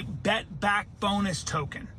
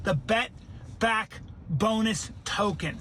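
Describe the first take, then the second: First: Said in the usual way. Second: Slow, spaced-out "Bet Back Bonus token"; word by word. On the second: Shown as a demonstration. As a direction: pause between Bet, Back and Bonus for emphasis. Repeats the name word by word.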